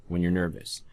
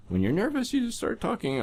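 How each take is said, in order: First: Said in the usual way. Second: Very high, nervous squeak; exaggerated high voice that isn't your own. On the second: Shown as a demonstration. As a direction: shoot the pitch way up as if nervous. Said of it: "in a voice that's not really yours".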